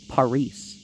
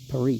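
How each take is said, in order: First: The name is given its Greek pronunciation. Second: The name is given its French pronunciation. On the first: "it's Paris in Greece" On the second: "Paris is Paris in French"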